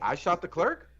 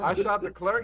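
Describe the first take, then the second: First: It is said as a question, rising. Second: It is said as a statement, falling.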